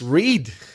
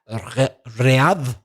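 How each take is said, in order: First: The word is said as one English syllable. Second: The word is sounded out letter by letter. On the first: The speaker calls it right. "It's read" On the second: The speaker calls it wrong. "you might be tempted to say re- read, but it isn't"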